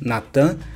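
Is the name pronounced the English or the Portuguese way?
Portuguese. The name is said with Portuguese pronunciation. "a gente geralmente pronuncia Nathan em português"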